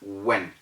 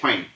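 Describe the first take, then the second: First: The w starts without a puff of air. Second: The w starts with a breathy puff of air. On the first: The speaker calls it right. "is pronounced as when" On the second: The speaker calls it wrong. "and not when. You don't blow air to say that"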